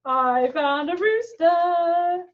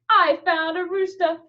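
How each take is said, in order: First: Put-on sung, slow singsong for the kids; sung slowly. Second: Said in the usual way. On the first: Shown as a demonstration. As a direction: sing I found a rooster slowly.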